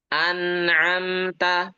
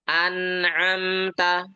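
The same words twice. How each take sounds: Both takes have the same delivery.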